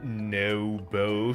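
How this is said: The name is said with an English accent. "said in the whitest voice possible"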